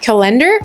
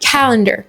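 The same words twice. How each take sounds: First: The stress is on the last syllable. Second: The stress is on the first syllable. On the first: The speaker calls it wrong. "On dit pas calendar" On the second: The speaker calls it right. "on accentue la première syllabe"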